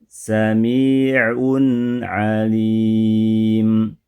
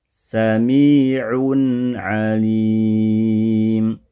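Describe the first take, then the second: No difference in how they are said.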